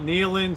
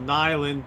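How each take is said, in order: First: The first vowel sounds like 'ee'. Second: The first vowel sounds like 'eye'. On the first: "some people call it Neeland" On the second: "some people call it Nyland"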